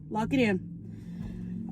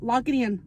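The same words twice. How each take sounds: First: "Lock it in" drawn out, slow and soft; a slow, hushed "Lock it in"; slow hushed emphasis. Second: Said in the usual way. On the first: Shown as a demonstration. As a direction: let "Lock it in" sink in quietly, slowly.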